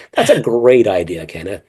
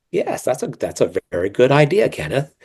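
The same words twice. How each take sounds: First: Sugary, professional meeting agreement; lightly acted office politeness; polite meeting voice. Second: Sugary, professional meeting agreement; a hint of a fake-polite office voice. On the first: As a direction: put on the nice Zoom-call voice. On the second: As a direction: sound overly pleasant for the boss. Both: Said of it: "that's how I would sound".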